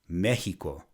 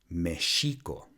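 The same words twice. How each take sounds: First: The X is not said as 'sh'. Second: The X is said as 'sh'. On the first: The speaker calls it wrong. "a prime example of the mispronunciation of the X" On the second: The speaker calls it right. "should be pronounced"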